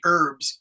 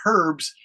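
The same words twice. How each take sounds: First: The word starts without an h sound. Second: The word starts with an h sound. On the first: "Americans say herbs, E R B S" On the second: "if they're from England, they will say herbs"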